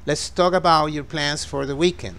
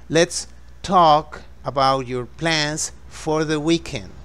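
First: It is spoken at a faster pace. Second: It is spoken slowly and gently.

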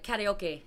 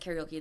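First: Karaoke is pronounced the Hawaiian local way. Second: Karaoke is pronounced the usual English way. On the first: "That's how they say it" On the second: "they don't pronounce it as karaoke though"

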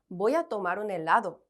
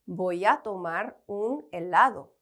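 First: The words are linked into one continuous flow. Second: Each word is pronounced separately and clearly. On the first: "쭉 연음으로" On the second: "하나하나씩 또박또박"

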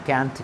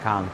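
First: American accent, with the vowel as in 'cat'. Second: British accent, with the vowel as in 'father'. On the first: "ক্যান্ট is American" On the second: "কান্ট is British"

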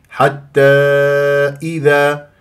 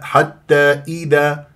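First: The kasra vowel is fully pronounced. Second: The kasra vowel is clipped short. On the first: The speaker calls it right. "إي ... هذه كسرة لازم أنه نجيبها ما نختلسها" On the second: The speaker calls it wrong. "لا"

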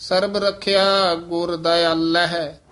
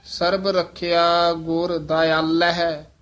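No difference in how they are said.

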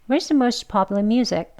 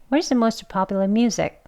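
The two takes are said the same way.

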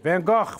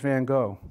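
First: The name ends in a harsh, throaty, cough-like sound. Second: The name ends plainly, with no throaty sound. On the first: "she coughs as she says it" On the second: "But Miss Cook says Van Gogh"

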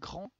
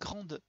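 First: The final e is silent, one syllable. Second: The final e is pronounced, adding a syllable. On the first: The speaker calls it wrong. "on va pas dire grand" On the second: The speaker calls it right. "on va dire grande"

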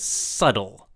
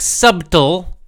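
First: The B sound is silent in the middle. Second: The B sound is pronounced in the middle. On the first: The speaker calls it right. "The correct pronunciation is subtle" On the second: The speaker calls it wrong. "It looks like subtle, but that's wrong pronunciation"

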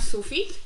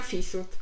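First: The syllables are in the usual order, su-fit. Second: The syllables are swapped, fi-sut. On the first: "nie mówiłam sufit" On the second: "tylko mówiłam fisut"

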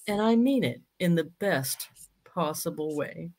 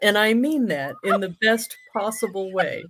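First: It is said slowly. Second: It is said at normal speed.

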